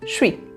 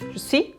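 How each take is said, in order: First: The two words are squeezed into one short syllable. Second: Both words are pronounced fully and separately. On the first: This is how people speak in everyday conversation. "na linguagem do dia a dia, os franceses falam" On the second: This is the careful form used while learning. "a gente vai falar desse jeito mesmo"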